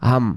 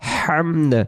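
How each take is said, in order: First: The word ends with an m sound. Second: The word ends with a d sound. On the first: The speaker calls it wrong. "তাহলে এই জায়গায় এই দাল অক্ষরের উচ্চারণটা তো হইলো না।" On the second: The speaker calls it right. "হামদ এমন উচ্চারণ হবে।"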